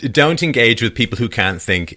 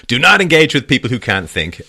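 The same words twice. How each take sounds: First: Said in the usual way. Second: "not" punched, louder and higher; stress on not. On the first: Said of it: "I have to get that in". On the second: Shown as a demonstration. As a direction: hit "not" hard like a motto. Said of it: "I see it in the mirror".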